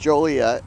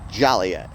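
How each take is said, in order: First: The name is said in the local pronunciation. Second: The name is said in an alternative pronunciation. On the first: The speaker calls it right. "yes, it is Joliet" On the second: The speaker calls it wrong. "you mispronounce the name and call it Joliet"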